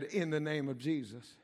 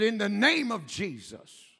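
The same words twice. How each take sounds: First: It is said at a normal volume. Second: It is yelled more loudly.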